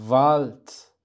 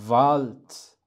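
Both takes have the same delivery.

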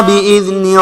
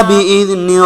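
The two takes are said the same way.

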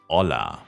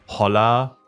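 First: The word starts directly with the vowel, no H. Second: The word starts with an audible H sound. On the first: The speaker calls it right. "sondern Hola. Immer vor dem Vokal ist das H stumm" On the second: The speaker calls it wrong. "Es ist zum Beispiel nicht Holla"

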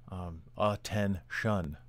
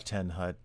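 First: The command ends with a 'shun' sound. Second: The command ends with a 'hut' sound. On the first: This is the current form of the command. The speaker calls it right. "It's a ten shun is the command" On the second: This is the older way the command was given. The speaker calls it wrong. "it was just ten hut"

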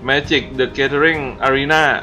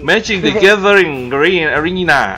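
First: It is said in a plain, casual accent. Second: It is said in an exaggerated, crisp English accent.

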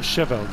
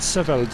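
First: The word begins with a soft sh sound. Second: The word begins with a hard s sound. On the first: The speaker calls it wrong. "not Seveld" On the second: The speaker calls it right. "the sh in Holland Seveld is an S sound, a hard S. So it's Holland Seveld"

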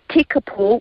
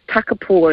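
First: The first vowel is an 'e' sound. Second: The first vowel is an 'a' sound. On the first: This is the officially recorded form. The speaker calls it wrong. "it has been recorded as Takapo with the E" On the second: This is the locally known traditional form. The speaker calls it right. "our archives have it recorded as Takapo, and so that's what we know it as"

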